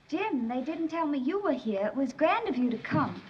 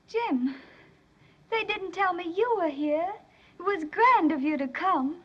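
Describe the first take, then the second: First: It is said flatly, without feeling. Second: It is said warmly, with strong feeling.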